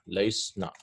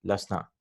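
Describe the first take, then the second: First: Laysna with the long ay sound kept; wrong form laysna. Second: Lasna with a short a, no ya; corrected form lasna. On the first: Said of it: "we cannot pronounce that". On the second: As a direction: say lasna clipped, the ya dropped. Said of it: "they dropped the ya". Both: Shown as a demonstration.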